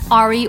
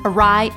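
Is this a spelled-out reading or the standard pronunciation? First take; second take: spelled-out; standard. First: It is pronounced the way it looks spelled. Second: It is pronounced in the standard established way. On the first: The speaker calls it wrong. "you might determine the pronunciation in your head" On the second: The speaker calls it right. "it's actually"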